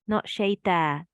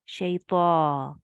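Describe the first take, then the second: First: The final vowel is cut short. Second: The final vowel is held for two counts. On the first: The speaker calls it wrong. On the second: The speaker calls it right. "that is um two seconds as well"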